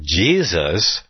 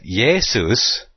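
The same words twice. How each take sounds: First: Said in the usual way. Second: "Jesus" said as "YAY-soos"; Greek-style pronunciation. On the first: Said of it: "or if they would have said". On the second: Shown as a demonstration. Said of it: "if they would have said".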